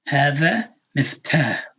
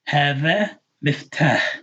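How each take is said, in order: No difference in how they are said.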